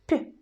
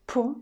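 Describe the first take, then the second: First: The consonant is soft, palatalized. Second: The consonant is hard, not palatalized. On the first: "soft P" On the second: "hard sound P"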